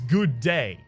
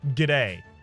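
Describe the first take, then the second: First: The end of the first word is fully said. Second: The end of the first word is swallowed.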